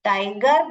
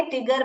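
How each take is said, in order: First: टाइगर with "eye" in the first syllable; long I sound. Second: टिगर with a short "ih"; short I sound. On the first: Teacher contrasts the real word, टाइगर with long "eye". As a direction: say टाइगर as "TIE-ger". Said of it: "टाइगर बदले टिगर बन गया". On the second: Teacher shows pupils the misreading, टिगर with short "ih". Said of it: "ये wrong है". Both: Shown as a demonstration.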